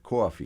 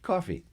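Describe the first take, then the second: First: It is said in a Long Island accent. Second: It is said in a South African accent.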